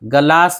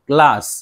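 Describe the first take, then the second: First: The first consonant is said full, with a vowel. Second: The first consonant is said lightly, without a vowel. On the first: The speaker calls it wrong. "गलास नहीं" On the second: The speaker calls it right. "हल्के से जी की आवाज"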